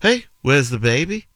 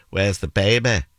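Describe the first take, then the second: First: Higher-pitched, lilting Liverpool accent. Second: Mancunian accent at everyday pitch; Manchester accent. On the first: Host gives one example phrase, Liverpool accent. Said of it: "If you were in Liverpool, you'd say". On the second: Host contrasts it with Liverpool, Manchester accent. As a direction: end "baby" on an open Mancunian "beh". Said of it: "Manchester, you'd say". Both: Shown as a demonstration.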